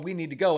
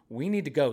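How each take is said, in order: First: The voice is short and tense. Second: The voice is calm and relaxed.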